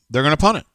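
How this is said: It is said as a falling statement.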